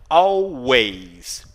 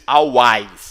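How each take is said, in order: First: The vowel after the W sounds like 'eh'. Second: The vowel after the W sounds like 'ah'. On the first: The speaker calls it right. "é como se fosse um E" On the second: The speaker calls it wrong. "E não A, você não diz always, não"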